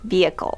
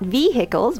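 First: The h sound is silent. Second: The h sound is clearly pronounced. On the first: The speaker calls it right. "The H is silent" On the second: The speaker calls it wrong. "not vehicles"

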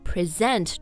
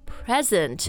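First: The stress is on the second syllable. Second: The stress is on the first syllable. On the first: To give or show something. "重音在那个 S 上面" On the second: A gift. "重音在第一个音节"

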